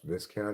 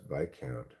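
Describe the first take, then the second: First: The s in the middle is pronounced. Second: The s in the middle is silent. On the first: The speaker calls it wrong. "I don't even think it's pronounced Viscount, even though it's spelled that way" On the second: The speaker calls it right. "I think it's pronounced Viscount"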